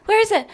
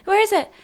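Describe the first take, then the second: No difference in how they are said.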